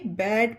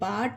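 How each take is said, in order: First: The vowel sounds like the 'a' in cat. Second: The vowel sounds like the 'a' in father. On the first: The speaker calls it right. "तो इसे बैट पढ़ेंगे" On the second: The speaker calls it wrong. "बाट नहीं"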